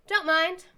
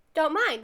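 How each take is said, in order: First: High, loud mock-Japanese accent; fake Japanese accent. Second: Raised, louder explanation in mock-Japanese accent; fake Japanese accent. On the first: Cheering up a teammate like sport anime, fake Japanese accent. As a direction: chirp it in a put-on Japanese accent. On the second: Explaining the sport anime phrase, fake Japanese accent. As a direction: repeat it clearly with a put-on Japanese accent. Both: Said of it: "said it with a fake Japanese accent".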